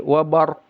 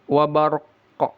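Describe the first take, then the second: First: The final q is cut off without any bounce. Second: The final q is released with an echoing bounce. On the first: The speaker calls it wrong. "Jangan berhenti wabar tanpa qalqalah, itu salah" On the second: The speaker calls it right. "Jadi dibaca wabarqa, ada qalqalahnya"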